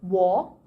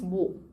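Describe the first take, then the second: First: The word is pronounced fully and carefully. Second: The word is pronounced in a relaxed, simplified way. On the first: "The very correct pronunciation is" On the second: "naturally when we pronounce it in sentences, it becomes"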